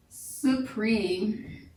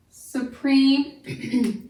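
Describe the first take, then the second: First: Said in the usual way. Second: Supreme with preme stressed; stress on second syllable. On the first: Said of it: "the word". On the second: Shown as a demonstration.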